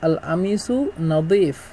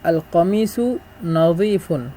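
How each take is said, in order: First: Egyptian dialect, with a glottal stop for q. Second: Standard Arabic, with q and full endings.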